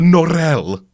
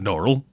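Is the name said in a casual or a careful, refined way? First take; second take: refined; casual. First: The name is said in a careful, refined way. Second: The name is said in a casual, everyday way. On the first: The speaker calls it right. "Let me do it with the proper pronunciation that he uses" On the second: The speaker calls it wrong. "Pardon me"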